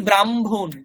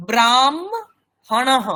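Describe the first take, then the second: First: Said in the usual way. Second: ব্রাহ্মণঃ drawn out very slowly, h before m; ধীরে, লেখা অনুযায়ী উচ্চারণ; slow written spelling. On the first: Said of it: "বলছি ব্রাহ্মণ". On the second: Shown as a demonstration. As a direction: stretch ব্রাহ্মণঃ syllable by syllable, h first. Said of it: "ব্রাহ্মণঃ বলছি না".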